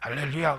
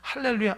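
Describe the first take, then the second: First: The voice is slightly rough and husky. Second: The voice is clear and fresh, not strained. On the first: This person prays halfway up the mountain. "사자봉에서 기도하네" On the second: This person prays only at the bottom of the mountain. "저 사람 초입에서 기도하는 사람이구나"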